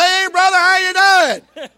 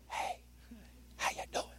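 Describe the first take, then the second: First: Loud call. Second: Soft whispered greeting. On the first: Preacher shows a needless loud greeting to a close brother. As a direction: holler it as if he's far off. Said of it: "I ain't gotta say". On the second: Preacher whispers a greeting to a brother close by. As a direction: lean in and breathe it. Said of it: "I can say". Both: Shown as a demonstration.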